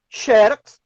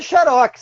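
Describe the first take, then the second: First: "xerox" as a paroxytone, XÉ-rox; stress on first syllable. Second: "xerox" as an oxytone, xe-RÓX; stress on last syllable. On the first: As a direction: punch the XE in "xerox". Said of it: "se a sílaba tônica for a penúltima". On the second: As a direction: punch the ROX in "xerox". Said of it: "você retira o acento". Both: Shown as a demonstration.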